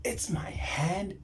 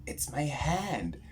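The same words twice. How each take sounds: First: Slow repeated whisper, rising at the end. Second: Said in the usual way. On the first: Retold or imitated. Repeating to himself what touched his forehead, slow whisper. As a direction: breathe it out again in disbelief.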